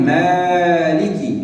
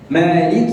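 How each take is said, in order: First: The first vowel is stretched far too long. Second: The first vowel is held its normal length. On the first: The speaker calls it wrong. "لا يمد فيها أكثر من اللازم، فلا أقول مالك، هذا خطأ" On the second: The speaker calls it right. "مالك يوم الدين"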